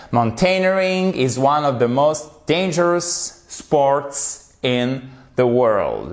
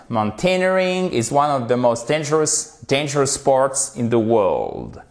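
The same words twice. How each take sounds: First: Slow model reading. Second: Said in the usual way. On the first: Shown as a demonstration. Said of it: "model sentence read slowly". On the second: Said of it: "model sentence repeated".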